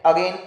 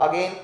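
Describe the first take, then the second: Both takes have the same delivery.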